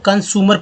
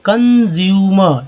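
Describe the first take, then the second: First: The middle is said with a plain 's' sound. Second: The middle is said with a 'zyoo' sound. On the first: The speaker calls it wrong. "लोग कंसूमर पढ़ देते हैं क्योंकि S को लगता है... स होता है" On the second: The speaker calls it right. "इसको ज बोलेंगे कंज्यूमर"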